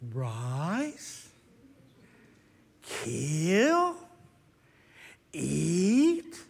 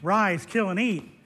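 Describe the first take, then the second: First: It is said very slowly. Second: It is said at a normal pace.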